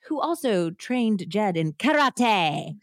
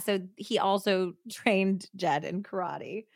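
First: Karate is said with a Japanese accent. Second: Karate is said with a plain American accent.

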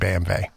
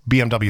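First: The letters are pronounced the German way. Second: The letters are pronounced the English way. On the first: The speaker calls it right. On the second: The speaker calls it wrong.

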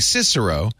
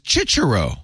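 First: The name uses the older classroom Latin pronunciation. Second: The name uses the ecclesiastical church Latin pronunciation. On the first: This is how it was said before the change. "we were saying Cicero" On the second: "there's a church way to say it, which is Cicero"

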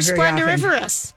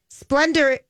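First: The word has an extra syllable, five in all. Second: The word has no extra syllable, four in all. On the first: The speaker calls it wrong. "I don't know that you said it right. / Of course I didn't" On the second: The speaker calls it right. "I like adding in another syllable"

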